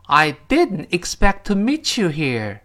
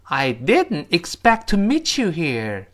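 First: Slow, clear repeat; slow model reading. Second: Slow, clear sentence for repeating; slow model reading. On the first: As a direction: say every word clearly, slowly. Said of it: "争取把每个字读清啊". (慢速清晰再读一遍) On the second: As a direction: read each word clearly and slowly. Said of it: "跟老师一起念". (慢速清晰跟读示范) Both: Shown as a demonstration.

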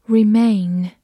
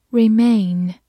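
Both takes have the same delivery.

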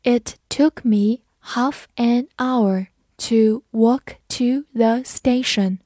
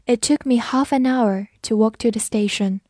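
First: Slow, clear read of the whole sentence. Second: Said in the usual way. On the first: Shown as a demonstration. Teacher reading the sentence slowly for students. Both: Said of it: "我们慢读一遍".

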